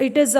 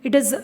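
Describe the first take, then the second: No difference in how they are said.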